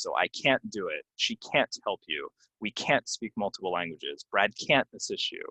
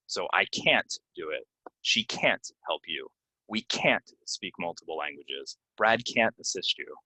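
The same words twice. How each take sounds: First: Can't still stressed but at natural speed. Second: CAN'T hit hard and drawn out in each sentence; slow teacher demo stressing can't; slow stressed can't. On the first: Teacher showing the natural-speed can't, still stressed. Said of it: "if I were saying it more naturally, it'd be a little bit faster". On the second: Teacher demonstrating a slow, heavily stressed can't. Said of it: "very obvious and, and slow and stressed". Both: Shown as a demonstration.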